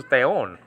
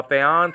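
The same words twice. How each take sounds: First: "theon" with a long closed o in the ending; genitive plural ending pronounced. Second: "theon" with the accusative singular ending; accusative ending pronounced. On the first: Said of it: "like genitive plurals". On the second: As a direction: say "theon" as the accusative, open final vowel. Accusative singular sounding like genitive plurals. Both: Shown as a demonstration.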